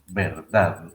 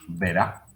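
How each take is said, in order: First: The full word is said with final d. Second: The word is shortened, dropping the final d. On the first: "se pronuncia así" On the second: "a veces incluso decimos verá"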